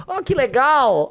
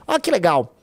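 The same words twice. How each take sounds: First: High, slow mock delight; sarcastic. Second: Said in the usual way. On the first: Real, not acted. Sneering at the poll numbers, sarcastic mock delight. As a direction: drag it out sarcastically, pitched up.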